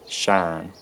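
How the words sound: The vowel is a single unglided sound. "it's totally monophthongized again"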